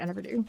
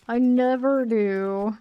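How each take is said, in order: First: Offhand admission. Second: Slow, drawn-out "I never do", weight on "never"; emphatic repeat. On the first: Streamer admitting to a dropped plan, quiet aside. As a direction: drop it in as an aside. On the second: Streamer owning up to a dropped plan, "never" stressed slowly. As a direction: stretch "I never do" and lean on "never". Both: Real, not acted.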